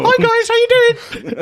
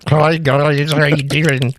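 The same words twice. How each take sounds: First: High-pitched small man. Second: Odd put-on echo voice, slightly raised; mock women's echo. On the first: Acted. Man walks up to greet the guys, comically high-pitched voice. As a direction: squeak it out far above your own voice. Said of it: "The deeper the voice". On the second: Guessing how women would greet the guys, silly put-on echo voice. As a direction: greet them in a silly imitation of a woman's echo. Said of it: "I think women's would just be like".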